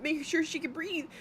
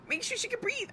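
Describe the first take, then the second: First: Imitated frantic plea, higher; a hammed-up worried plea; mock panic. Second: The same plea pushed much higher, near squeak; shrill mock panic. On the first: Mother retelling her fear at the pool, mock panic. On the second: Mother retelling her fear at the pool, peak mock panic. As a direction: panic climbing to the top of the voice. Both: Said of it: "I'm, like, fucking panicking".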